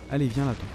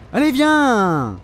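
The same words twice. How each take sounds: First: Said in the usual way. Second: Drawn-out, pitched-up yell; slow, raised "come on"; exasperated challenge. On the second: Real, not acted. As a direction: stretch it into an impatient taunting call. Shouts the same call at enemy.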